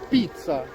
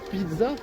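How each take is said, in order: First: It is pronounced the Italian way. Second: It is pronounced the French way. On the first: This is how it is supposed to be said. The speaker calls it right. "on doit dire pizza" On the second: This is how the speaker always says it. The speaker calls it wrong. "moi je dis toujours pizza"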